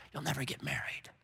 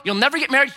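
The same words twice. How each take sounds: First: Hushed, breathless lie into the ear; enemy's whisper. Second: High, loud accusing taunt; taunting lie. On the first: Enemy whispering lies to a woman, hushed and sly. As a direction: whisper it like a cruel secret. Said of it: "That's the whisper of the enemy". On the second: Babylon shouting lies at a woman, loud and high. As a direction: throw it at her like a verdict. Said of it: "Babylon whispers to us these lies". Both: Acted.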